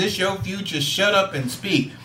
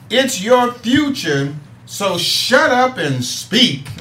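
First: Said in the usual way. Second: "It's your future, so shut up and speak" drawn out slowly, each word leaned on; slogan read out deliberately; slow emphatic slogan. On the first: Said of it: "what is he talking about when he says". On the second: Shown as a demonstration. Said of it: "our Let's Talk About It thing is saying".

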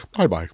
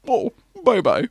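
First: Low, quick repeat of the Connery line; echoing Connery. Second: A light Connery voice, high, amused; Sean Connery impression. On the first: Retold or imitated. Friend repeating the Connery bye-bye, lower imitation. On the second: Connery brushing off a departing actor, light Scottish impression. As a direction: toss off a Scottish bye-bye. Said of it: "Sean Connery just goes".

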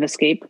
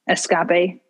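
First: Said in the usual way. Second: Escape as es-CAH-pay; playful mispronunciation. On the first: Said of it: "instead of escape". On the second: Shown as a demonstration. Quoting Finding Nemo, es-CAH-pay. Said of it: "from Finding Nemo instead of escape".

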